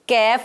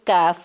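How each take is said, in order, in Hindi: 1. स्वर 'ai' जैसा बोला जाता है। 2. स्वर पतले 'aa' जैसा बोला जाता है। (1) "कैफ नहीं बोलेंगे" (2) "काफ बोलेंगे"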